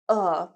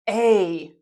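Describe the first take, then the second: First: It is said with a short reduced 'uh' vowel. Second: It is said with a full 'ay' vowel. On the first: It is said in fast everyday speech. "They say uh" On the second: It is said very clearly. "people don't say a"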